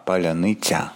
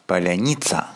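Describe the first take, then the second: First: It has a 'y' vowel and ends in soft 'tsya'. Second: It has a Russian 'i' and ends in hard 'tsa'. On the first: The speaker calls it right. "После «н» идет «ы», а после «ц» идет «я»" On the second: The speaker calls it wrong. "не поляница"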